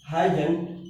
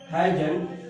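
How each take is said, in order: First: It is said as one short contracted word. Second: The same.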